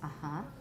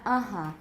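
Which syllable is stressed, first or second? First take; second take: second; first. First: The stress is on the second syllable. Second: The stress is on the first syllable. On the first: The speaker calls it right. "They should have put the stress mark on the second syllable" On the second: The speaker calls it wrong. "It's not uh-huh"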